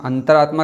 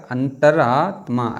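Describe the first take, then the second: First: Said in the usual way. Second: अंतरात्मा drawn out part by part; slow spelling demo. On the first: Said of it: "कैसे लिखा जाएगा". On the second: Shown as a demonstration. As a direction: slowly stretch अंतरात्मा, antar-aa-tmaa. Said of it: "ऐसे".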